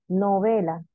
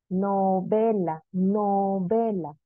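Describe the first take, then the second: First: Said in the usual way. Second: "novela" stretched slowly, no-VE-la, leaning on VE; slow teacher's demo of "novela" with force on VE; stressed syllable demo. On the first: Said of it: "tendríamos que pronunciarlas tantas veces". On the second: Shown as a demonstration. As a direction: draw out "novela" to show the stressed VE. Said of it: "en donde ejercemos mayor fuerza de voz".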